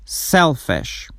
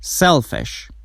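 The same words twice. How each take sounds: The two takes are said the same way.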